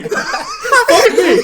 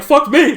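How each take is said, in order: First: Much higher, louder, laughing through it; laughing mock boss. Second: Higher, louder mock boss repeating it. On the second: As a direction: parrot the boss in a shrill mock squeal. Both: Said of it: "He's like".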